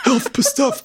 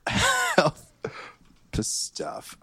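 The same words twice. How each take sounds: First: Mocking echo. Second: High then hushed repeat; mock solemn echo. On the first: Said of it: "Put that on a t-shirt". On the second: Player solemnly repeats the DM's phrase, high then hushed. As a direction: start high and let it fade to a breath. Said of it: "Okay, I wrote it down".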